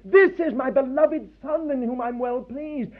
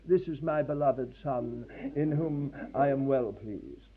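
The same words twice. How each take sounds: First: Bursting out with joy, a little higher; spontaneous cry of joy. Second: Slow, softer, calm English civil servant voice. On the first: God to his Son at baptism, joyful outburst. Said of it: "burst out in a kind of spontaneous cry". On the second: God mocked as a calm English official, slow and soft. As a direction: say it like an unmoved official, quietly and slowly. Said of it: "in a very calm English way". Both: Retold or imitated.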